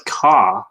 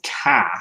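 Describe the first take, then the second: First: "car" with a full, clear r at the end; rhotic car. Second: "car" with the r dropped, like "cah"; Boston car. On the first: Shown as a demonstration. Host showing how he said car growing up, r pronounced. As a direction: say "car" the way you grew up, r fully sounded. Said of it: "I used to pronounce it car". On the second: Retold or imitated. Host imitating his cohost's Boston way of saying car, r dropped. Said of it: "But you pronounce it car".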